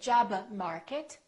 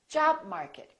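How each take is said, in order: First: The b is released before market. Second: The b is held without release. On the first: The speaker calls it wrong. "don't say job market" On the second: The speaker calls it right. "say job market"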